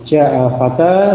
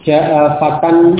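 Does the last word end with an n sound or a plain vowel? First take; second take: plain vowel; n sound. First: The last word ends on a long vowel. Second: The last word ends with an n sound. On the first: The phrase is read with a stop at the end. "kalau dibaca dengan waqaf, maka tanwinnya tadi dihilangkan" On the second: The phrase is read continuing, not pausing. "asalnya dengan tanwin fatan"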